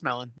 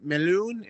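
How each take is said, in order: First: The name is said with a plain American accent. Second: The name is said with a foreign, non-American accent. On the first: The speaker calls it right. "no, it's just melon" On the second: The speaker calls it wrong. "people who are not U S A based"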